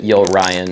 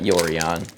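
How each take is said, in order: First: It is said like two words, yo and Ryan. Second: It is said as one run-together word. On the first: "I pronounce it Yo Ryan" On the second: "Not Yorion"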